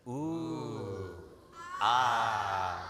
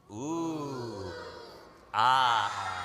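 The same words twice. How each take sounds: First: Ooh then a low louder ah; ooh ah of admiration. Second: Big shouted ah after the ooh; ooh ah with feeling. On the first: Teacher leading audience in admiring ooh and ah. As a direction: lead the crowd in awe. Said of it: "let's try that together". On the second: Teacher asks crowd for the ooh ah with feeling. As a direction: pour real feeling into the awe. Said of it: "One more time with feeling". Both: Shown as a demonstration.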